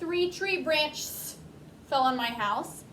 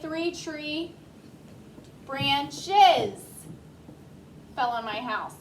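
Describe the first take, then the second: First: The plural ending is only an s sound. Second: The plural ending is an extra syllable. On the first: The speaker calls it wrong. "We wouldn't say" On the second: The speaker calls it right. "We would say ... So we add that es"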